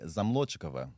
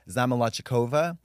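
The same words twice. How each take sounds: First: The name is said with a Russian accent. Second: The name is said with an American accent.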